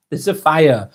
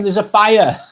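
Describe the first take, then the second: First: Repeats it with a laugh, slower; amused chuckle on the words; laughing in disbelief. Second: Said in the usual way. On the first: Real, not acted.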